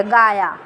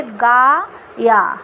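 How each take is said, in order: First: Said in the usual way. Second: गा and या said slowly as two separate syllables with a gap; syllables split apart. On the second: Shown as a demonstration. Teacher showing the unjoined syllables, separate and slow. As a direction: pull गा and या apart, a slow pause between them. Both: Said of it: "इस जोड़ने की प्रक्रिया को".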